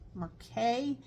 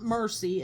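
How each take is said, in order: First: The word ends with an ay sound. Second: The word ends with an ee sound. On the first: The speaker calls it right. "It's Mer Mer Mer Mercay boxcar" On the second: The speaker calls it wrong. "It's not Mercy"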